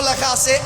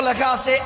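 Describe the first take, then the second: No difference in how they are said.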